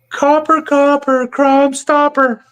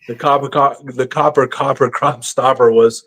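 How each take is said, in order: First: Much higher, slow sing-song imitation of a friend; squeaky high mimic of Ron spotting a cop; imitating Ron's voice. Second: Said in the usual way. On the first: Teller mimics Ron warning the car about police, high-pitched. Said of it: "I'm trying to imitate his voice. He had a high-pitched voice". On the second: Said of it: "I'm trying to imitate his voice".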